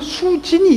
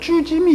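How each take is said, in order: First: The name begins with a plain s sound. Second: The name begins with a tense jj sound. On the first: The speaker calls it right. "자기 이름을" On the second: The speaker calls it wrong. "쭈짐이 이러던 애예요"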